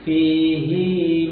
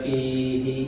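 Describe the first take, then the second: First: The final vowel is held long. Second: The final vowel is kept short. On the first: "hi-nya, domirnya dibaca panjang" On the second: "di Al-Baqarah itu nggak dipanjangkan"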